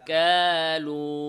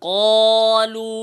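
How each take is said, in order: First: The first sound is thin and light. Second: The first sound is thick and heavy. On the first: The speaker calls it wrong. "কাফের মতো পাতলা করে" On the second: The speaker calls it right. "মোটা করে বলতে হবে"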